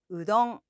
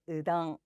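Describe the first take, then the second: First: The word is said with clear 'oo' and 'o' vowels. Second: The word is said with reduced, unrounded 'uh' vowels. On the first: A listener may not understand it. The speaker calls it wrong. ""우동"라고 하면 "음?" 라고 할 수도 있지만" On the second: A listener will understand it. The speaker calls it right. ""으덩"라고 억양만 맞추면 일본에서는 말이 통하는 것 같습니다"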